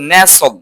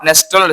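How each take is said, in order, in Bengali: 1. মাঝখানে t ধ্বনিটি নীরব থাকে। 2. মাঝখানে t ধ্বনিটি উচ্চারিত হয়। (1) "টিটা সাইলেন্ট থাকবে" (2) "নট নেস্টল"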